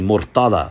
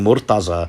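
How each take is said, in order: First: The name is said the Arabic way. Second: The name is said the Persian-Urdu way. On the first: "really it's supposed to be Murtada" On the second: "the Persian and, and Urdu pronunciations"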